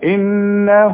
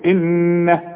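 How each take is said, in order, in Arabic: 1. الهاء الأخيرة تحمل ضمة طويلة. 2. الكلمة تنتهي بهاء ساكنة. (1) "اذا وصل، اقول انه هو" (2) "اذا وقفت هقول انه"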